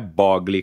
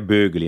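First: The first vowel is a plain o sound. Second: The first vowel is a rounded ü sound. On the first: This is the adopted everyday pronunciation. The speaker calls it wrong. "o meu sobrenome não é Bogli, como eu já assumi que eu tenho que falar Bogli" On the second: This is the original pronunciation of the name. The speaker calls it right. "Mas seria Bugli, né? Igual da Gisele Bündchen"

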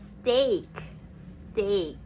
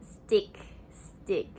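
First: The word sounds like steak. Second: The word sounds like stick. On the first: The speaker calls it right. "ซึ่งมันออกเสียงว่า" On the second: The speaker calls it wrong. "ได้ยินหลายคนพูดว่า"

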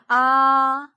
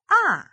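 First: The pitch stays high and level. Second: The pitch falls sharply and quickly.

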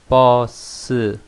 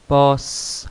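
First: The word ends with a voiced vowel after s. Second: The word ends with a bare voiceless s. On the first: "버에서도 귀가 울리고 스에서도 귀가 울립니다. 모음이 하나씩 있으니까요" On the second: "으 발음을 내지 않고 스 버스 하게 되면은 스 발음했으면 귀가 울리지 않습니다"

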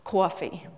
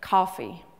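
First: The word is said with a New York style accent. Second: The word is said with a Southern style accent. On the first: This is how it was said on Sesame Street. "I heard somebody say it like this" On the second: This is how people say it in North Carolina. "I was growing up in North Carolina, ... I heard the word pronounced more like this"

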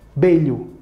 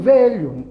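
First: The word begins with a b sound. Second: The word begins with a v sound. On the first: The speaker calls it right. "Em espanhol, você pronuncia belho. Do mesmo jeito como se fosse uma B" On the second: The speaker calls it wrong. "quem lê em português pode achar que vai falar assim"

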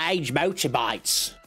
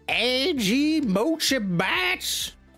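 First: It is said with an Australian-sounding accent. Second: It is said with a Southern American accent.

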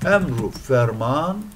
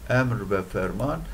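First: The joining word is pronounced as a short 'u'. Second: The joining word is pronounced as a full 've'. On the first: "İster emru ferman diye bu şekilde okuyun" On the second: "İster bu şekilde okuyun"

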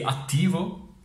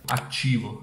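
First: The middle consonant sounds like t. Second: The middle consonant sounds like ch. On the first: "al posto di attivo" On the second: "c'è questa C da qualche parte"

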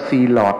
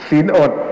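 First: It is said as 'see-lot', the l starting syllable two. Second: It is said as 'sin-ot', the l ending syllable one. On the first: Someone else misread it this way. The speaker calls it wrong. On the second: This is the usual reading of the word. The speaker calls it right.

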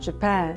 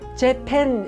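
First: The second syllable is strong, the first weak. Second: Both syllables are said with equal force. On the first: The speaker calls it right. "뒤에 있어요 걔네들은" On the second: The speaker calls it wrong. "재팬 이러시면 안 돼요. 재팬 다 세죠"

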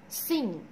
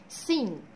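The two takes are said the same way.

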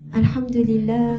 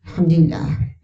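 First: It is said in a calm, serene way. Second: It is said in a troubled, uneasy way.

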